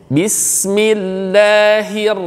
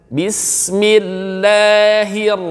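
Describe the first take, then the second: Both takes have the same delivery.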